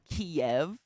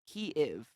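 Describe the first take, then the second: First: The name is said the Russian way. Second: The name is said the Ukrainian way. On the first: It treats the city as Russian. The speaker calls it wrong. "that is the Russian pronunciation of the city Kiev" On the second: It treats the city as Ukrainian. The speaker calls it right. "That is the proper Ukrainian pronunciation of Kiev"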